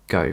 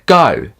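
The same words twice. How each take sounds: First: The word is said softly with little mouth movement. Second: The word is said loudly with a wide-open mouth.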